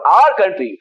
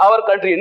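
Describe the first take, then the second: First: "our" said as one short "aar"; correct pronunciation. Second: "our" said as two syllables, "aa-war"; wrong pronunciation. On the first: Teacher giving students the correct "our", a single "aar". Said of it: "उच्चारण हो गया आर". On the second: Teacher showing students the common mistake, "our" as "aawar". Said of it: "बहुत सारे teacher ही आवर कहते हैं". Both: Shown as a demonstration.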